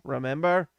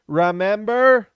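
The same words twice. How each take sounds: First: Said in the usual way. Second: Slow and loud Remember with a falling end; drawn-out emphatic Remember. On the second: Real, not acted. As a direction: stretch out Remember, pressing hard.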